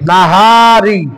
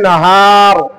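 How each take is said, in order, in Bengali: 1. শব্দটি শেষ হয়েছে একটি স্বরধ্বনি দিয়ে। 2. শব্দটি ব্যঞ্জনে শেষ হয়েছে, স্বরধ্বনি বাদ পড়েছে।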